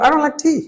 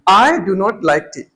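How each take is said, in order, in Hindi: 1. Do not एक ही शब्द में छोटा हो जाता है। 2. Do not दो पूरे शब्दों की तरह बोला जाता है। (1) "उसने क्या बोला" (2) "हमें क्या सही लगेगा"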